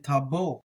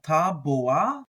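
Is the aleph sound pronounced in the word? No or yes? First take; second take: no; yes. First: The aleph sound is dropped from the word. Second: The aleph sound is pronounced in the word.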